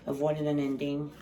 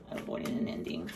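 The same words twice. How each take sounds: First: Said in the usual way. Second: Breathy unvoiced whisper of the card title. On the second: Shown as a demonstration. Reader whispers the card name to herself. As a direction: breathe the words out with no voice.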